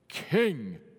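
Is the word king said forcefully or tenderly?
forcefully. The word is said forcefully and mightily.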